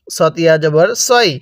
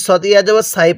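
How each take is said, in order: First: "সই" with a rounded, full "o" vowel; correct letter pronunciation. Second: "সাই" with an open "aa" vowel; incorrect letter pronunciation. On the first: Teacher models the proper reading, "সই" with rounded vowel. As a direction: say "সই" as "saw-i", not open "saa-i". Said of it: "তাহলে কিভাবে পড়তে হবে?". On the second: Teacher warns learners of a misreading, "সাই" with open aa. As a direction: say "সাই" as "saa-i", not rounded "so-i". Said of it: "পড়াটা সহি শুদ্ধ হবে না". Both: Shown as a demonstration.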